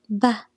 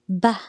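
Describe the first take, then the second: The two takes are said the same way.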